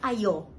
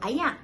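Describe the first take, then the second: First: It is said in the Perak way, 'ayo'. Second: It is said in the Kedah way, 'ayak'.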